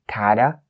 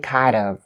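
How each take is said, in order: First: The word 'of' is reduced, giving 'kinda'. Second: The word 'of' is pronounced fully and separately. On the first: The speaker calls it right. "but you say kinda" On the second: The speaker calls it wrong. "You don't say kind of"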